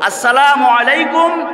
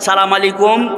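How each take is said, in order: First: The greeting is pronounced fully, with every syllable. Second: The greeting is clipped, dropping its opening syllable. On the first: The greeting is a blessing. The speaker calls it right. "সালাম দিতে হবে সহি শুদ্ধ করে" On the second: The greeting turns into a curse. The speaker calls it wrong. "নির্বাচনের সালামের স্টাইল ভালো না"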